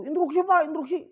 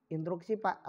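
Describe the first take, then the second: First: High, loud butting-in; pushy interjection. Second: Soft, low-pitched polite request; polite interjection. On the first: Teacher shows pupils how not to interrupt, pushy and high. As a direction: interrupt insistently with a raised voice. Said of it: "jangan begitu". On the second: Teacher shows pupils how to interrupt politely, soft and low. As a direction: ask the floor courteously, keeping it quiet. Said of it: "kalau yang lebih sopan begini". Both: Shown as a demonstration.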